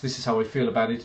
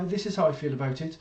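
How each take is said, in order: First: It is said firmly and with conviction. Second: It is said hesitantly and without conviction. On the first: The speaker truly means it. "really, yes" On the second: The speaker does not truly mean it. "oh, well, yeah"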